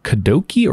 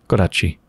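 First: The last syllable starts with a k sound. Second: The last syllable starts with a ch sound. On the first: "is it Kadoki or Kadochi?" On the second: "So you do the like ch for the ch?"

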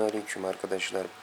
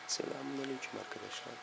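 First: It is spoken in a normal voice. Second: It is spoken in a whisper.

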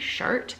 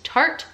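First: The word begins with a 'ch' sound. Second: The word begins with a 't' sound. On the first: The speaker calls it wrong. "I always say Chart, but it is not Chart" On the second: The speaker calls it right. "It's Tarte Shape Tape"

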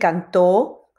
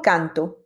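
First: The stress is on the last syllable. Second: The stress is on the first syllable. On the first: He sang. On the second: A song or chant.

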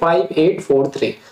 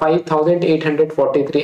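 First: Each digit is read out separately, one by one. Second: The digits are read together as one number. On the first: The speaker calls it right. "कैसे pronounce करोगे?" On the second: The speaker calls it wrong. "उसको मैं ऐसे नहीं बोलूंगा"

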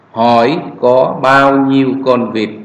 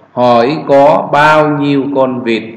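The two takes are said the same way.

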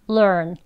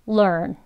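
The two takes are said the same way.

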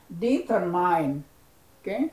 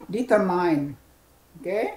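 Both takes have the same delivery.

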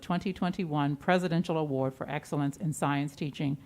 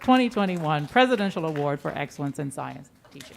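First: It is read in a flat, low-energy way. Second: It is read in a lively, vigorous way. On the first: The speaker calls it wrong. "I should have read it with a little bit more vigor" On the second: The speaker calls it right. "That was a much better effort"

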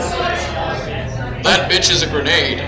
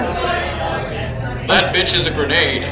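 First: It is said in an American accent. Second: It is said in an American accent.

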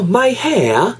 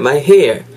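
First: It has an exaggerated British accent, no R. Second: It has a North American accent with R.

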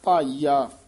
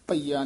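First: The first vowel is long. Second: The first vowel is short. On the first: The speaker calls it right. "ਭਾਈਆ ਭਈਆ ਨਹੀਂ ਕਹਿਣਾ" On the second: The speaker calls it wrong. "ਭਈਆ ਨਹੀਂ ਕਹਿਣਾ"

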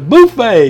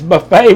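First: Buffet is said with a Cajun pronunciation. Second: Buffet is said with a plain, everyday pronunciation. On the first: "I think it's his Cajun way of saying it" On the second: "It's buffet"

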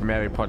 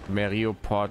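First: It is said without an 'o' after 'Meri'. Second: It is said with an 'o' after 'Meri'. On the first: The speaker calls it wrong. "Es heißt nicht Meripod" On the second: The speaker calls it right. "es heißt Meriopod"

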